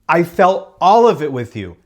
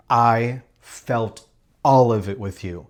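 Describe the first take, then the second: First: Higher, louder repeat with feeling; the same line pushed up and out; emphatic. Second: Slow, quiet and heartfelt; a slow, tender first take; soft and sincere. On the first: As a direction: say it again and really mean it. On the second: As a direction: say it gently, almost to yourself. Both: Shown as a demonstration.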